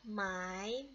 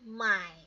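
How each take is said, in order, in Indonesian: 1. Diucapkan dengan nada kedua. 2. Diucapkan dengan nada ketiga.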